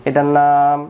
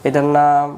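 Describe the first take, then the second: Both takes have the same delivery.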